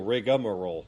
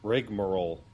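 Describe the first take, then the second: First: It has an extra vowel after 'rig'. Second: It has no extra vowel after 'rig'. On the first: "I pronounce the A" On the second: "Google's saying that"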